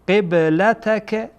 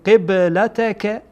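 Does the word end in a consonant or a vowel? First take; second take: vowel; vowel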